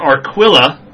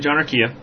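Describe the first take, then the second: First: The name is said the non-Southwestern way. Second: The name is said the Southwestern, Spanish-like way.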